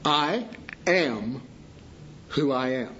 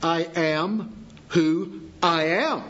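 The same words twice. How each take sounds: First: Opening "I am" weighted, "who I am" dropping away; stress on the first I AM. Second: Weight on the final AM, slow; stress at the end. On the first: Preacher to congregation, leaning on the opening "I am". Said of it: "the emphasis falls on the first "I am". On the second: Preacher to congregation, stressing the closing "am". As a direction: lean on the last word "am" in "I am who I am". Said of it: "if we put it to the end". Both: Shown as a demonstration.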